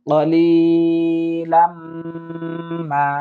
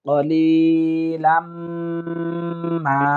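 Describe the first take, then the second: Both takes have the same delivery.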